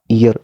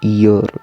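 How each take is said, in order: First: The word is said quickly in a reduced form. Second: The word is said slowly in its full form. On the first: "But native speaker English. This word pronounce your" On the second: "Normal speaker English. This word pronounce your"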